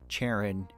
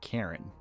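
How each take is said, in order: First: The name begins with a ch sound. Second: The name begins with a k sound.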